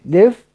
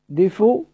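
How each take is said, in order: First: The word ends on a bare f with no vowel. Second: The word ends with a faint, partial u vowel. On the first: "وجه دف بالسكون" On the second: "دفو دفو بالروم، بنجيب بعض الحركة"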